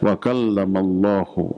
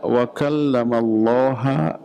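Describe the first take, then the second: First: The name ends with an 'u' vowel. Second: The name ends with an 'a' vowel. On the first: God is the one who speaks. The speaker calls it right. "tanda rafa dengan dhammah, maka dibaca wa kallamallahu" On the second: God is the one spoken to. The speaker calls it wrong. "Allahnya dibaca ha, jadi objek"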